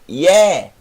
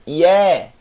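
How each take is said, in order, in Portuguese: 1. A vogal é aberta. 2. A vogal é aberta.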